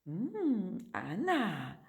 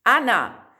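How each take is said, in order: First: "Ana" said quietly with a nasal Portuguese ã; nasalized Ana. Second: "Ana" said louder with open, oral a. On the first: Teacher showing the wrong nasal Ana. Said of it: "não se pode nasalizar". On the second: Teacher showing the correct Spanish Ana. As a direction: clear "Ana", a wide and not nasal. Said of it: "se pronuncia A de Ana". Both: Shown as a demonstration.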